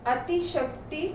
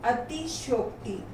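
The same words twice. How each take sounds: First: अतिशक्ति with "shak" for "shayok"; mispronounced. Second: Said in the usual way. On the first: Shown as a demonstration. Teacher reads the error list, mispronounced अतिशक्ति with "shak". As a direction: say अतिशक्ति as "ati-shakti". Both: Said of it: "कुछ तो मात्रा संबंधी हैं".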